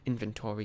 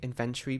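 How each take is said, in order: First: It is said with a non-British pronunciation. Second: It is said with a British pronunciation. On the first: This is how many others say it. "I've been hearing lots of people say inventory" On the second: This is how it is said at home. "in the U K we say inventory"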